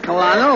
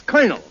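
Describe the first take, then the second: First: "colonel" said as co-lo-nel, every letter; spell-it-out "colonel" with the L sounded; wrong pronunciation. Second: "colonel" said like kernel, no L; "colonel" as ker-nel, two syllables; correct pronunciation. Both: Shown as a demonstration. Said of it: "that word is pronounced colonel".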